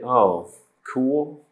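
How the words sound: The voice sounds flat and unenthusiastic. The speaker doesn't really think it's cool. "you don't feel that it's cool"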